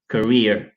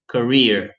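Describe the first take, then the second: First: The word is said in an American accent. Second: The word is said in an American accent.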